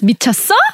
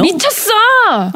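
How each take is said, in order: First: The voice rises at the end, like a question. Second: It is said forcefully, as an exclamation.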